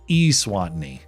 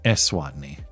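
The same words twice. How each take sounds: First: The E is said as a long E. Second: The E is said as a short E. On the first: The speaker calls it right. "Long E. Oh, the country's pronounced Eswatini" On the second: The speaker calls it wrong. "not Eswatini"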